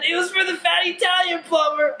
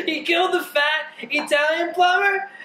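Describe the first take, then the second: First: Shouted. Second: Said in the usual way. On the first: Real, not acted. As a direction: yell it back at him. Repeated, second time shouted.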